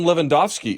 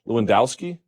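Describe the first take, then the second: First: The name is pronounced the original way. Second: The name is pronounced the anglicized way. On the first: The speaker calls it right. "I'm pretty sure that's how you pronounce it" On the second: The speaker calls it wrong. "We have Americans here who go by Lewandowski"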